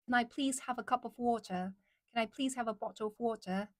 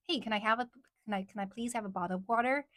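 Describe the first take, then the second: First: Careful British accent demo; British, each word pronounced with care. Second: Easy, casual American accent; relaxed American pronunciation of "bottle of water". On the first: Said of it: "Like that, right?". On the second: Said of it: "But it's easier to say". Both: Shown as a demonstration.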